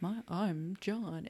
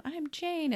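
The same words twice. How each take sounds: First: Mock man's voice. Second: Put-on much higher, girlish squeak on "I'm Jane."; back to her own voice. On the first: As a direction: play the man she's trying to be. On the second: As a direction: let "I'm Jane." jump way up high. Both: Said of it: "her voice deepened and she started talking like a man".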